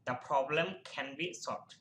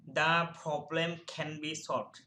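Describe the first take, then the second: First: "The" said "dha", very slow and deliberate. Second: "The" said as "dha" before the consonant, the sentence read very slowly. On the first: Teacher repeating the example for students, slow and deliberate. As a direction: say it again slowly with "The" as "dha". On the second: Teacher to students, showing "The" before a consonant, slow dictation. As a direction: read "The problem can be solved" slowly, "The" as "dha". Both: Shown as a demonstration. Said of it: "দা হবে".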